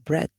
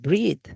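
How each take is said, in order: First: The vowel is short, as in bed. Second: The vowel is long, as in beach. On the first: The speaker calls it right. "we say bread" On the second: The speaker calls it wrong. "We don't say bread"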